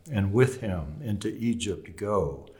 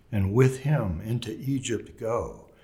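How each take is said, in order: No difference in how they are said.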